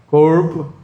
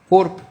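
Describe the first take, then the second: First: It is said in a goiano accent. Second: It is said in a gaúcho accent. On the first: "O goiano?" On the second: "Como é que o gaúcho fala?"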